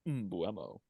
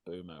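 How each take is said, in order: First: The name begins with an M sound. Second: The name begins without an M sound. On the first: The speaker calls it wrong. "in my own habit of calling him uh, Mbuemo. I think it sounds cool. That's not his name" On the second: The speaker calls it right. "His name's Boomo, apparently"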